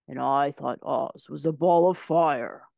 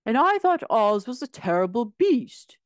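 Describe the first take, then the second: First: Lion's voice. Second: Higher, louder tin man voice; a hint of the indignant Tin Woodman; Tin Woodman's voice. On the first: The lion recalling the ball of fire, slow and heavy. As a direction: give it the lion's heavier sound. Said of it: "exclaimed the lion". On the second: Tin Woodman telling what he saw, higher and louder. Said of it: "said the Tin Woodman". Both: A narrator's reading.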